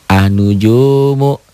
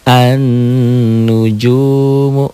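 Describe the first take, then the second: First: The n sound is short and single. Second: The n sound is held long and doubled. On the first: "Lam ini tidak ada nih" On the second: "Kasih tasydid"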